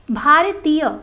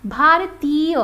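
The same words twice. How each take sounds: First: भारतीय said the wrong way, loud and falling; the incorrect भारतीय, stressed; wrong pronunciation. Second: भारतीय said carefully, rising at the end; the correct भारतीय, slowly rising; correct pronunciation. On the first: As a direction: show the mistaken भारतीय. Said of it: "ऐसे उच्चरित करते हैं यहाँ पर तो गलत होगा". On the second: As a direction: model the right भारतीय. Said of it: "गलत होगा". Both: Shown as a demonstration.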